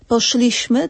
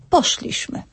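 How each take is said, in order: First: The stress is on the second syllable. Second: The stress is on the first syllable. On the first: The speaker calls it wrong. "nie poszliśmy" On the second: The speaker calls it right. "tylko poszliśmy"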